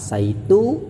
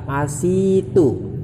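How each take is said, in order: First: The vowel after the s is a. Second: The vowel after the s is i. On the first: "membaca fathahnya sin" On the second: "membaca kasrohnya sin"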